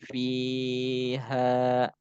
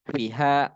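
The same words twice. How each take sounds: First: The vowel in fi is long. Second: The vowel in fi is short. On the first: The speaker calls it right. "Dia harus panjang" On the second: The speaker calls it wrong. "Jangan fiha. Ya nggak boleh gitu. Nggak boleh pendek"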